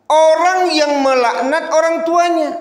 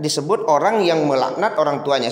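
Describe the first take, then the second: First: Orang stressed high, loud and slow; emphatic preaching. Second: Said in the usual way. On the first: Acted. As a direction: drive home "orang yang melaknat orang tuanya". Preacher stresses the hadith meaning. (menekankan "orang" dengan keras dan tinggi)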